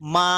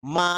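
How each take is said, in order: The two takes are said the same way.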